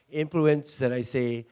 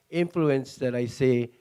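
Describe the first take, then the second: No difference in how they are said.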